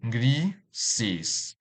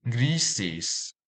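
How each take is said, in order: First: "grises" split in two, gri, ses; syllable by syllable. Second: Said in the usual way. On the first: Shown as a demonstration. Teacher dividing a word for learners, "grises" in separate syllables. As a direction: say "grises" with a clear gap between its two syllables. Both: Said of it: "This word has two syllables".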